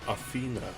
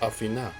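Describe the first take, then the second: First: It is said with the common English pronunciation. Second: It is said with a Greek-style pronunciation. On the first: "the common Athena" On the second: "In Greek, the name is closer to Athena"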